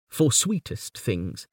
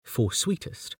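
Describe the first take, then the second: First: Slow, deliberate, with "For" falling; slow poem reading. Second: "for sweetest" said evenly and softer, no push on "for". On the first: Acted. Lecturer reads the final couplet slowly. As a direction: draw out the words. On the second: Shown as a demonstration. Lecturer shows the even regular rhythm of "for sweetest". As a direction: keep "for sweetest" level and quiet. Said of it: "The even tone of the regular".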